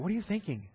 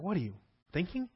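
First: It is said with no pause inside. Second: It is said with a pause after 'you'.

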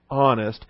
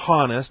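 First: The word begins with a closed throat, no h. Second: The word begins with an audible h sound. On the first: The speaker calls it right. "you start with a closed throat when you say honest" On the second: The speaker calls it wrong. "You don't say honest"

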